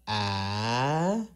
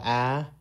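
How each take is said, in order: First: "ah" rising like a question; "ah" rising through a questioning tone. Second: Said in the usual way. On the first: Shown as a demonstration. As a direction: lift "ah" up like asking something. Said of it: "the question mark is ah". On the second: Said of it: "the normal ah".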